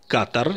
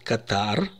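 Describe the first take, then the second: First: The stress is on the first syllable. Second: The stress is on the second syllable. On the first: The speaker calls it right. "я произношу с ударением на первом слоге" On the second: The speaker calls it wrong. "в израильских СМИ чаще или, как правило, произносят Катар. Это неправильно"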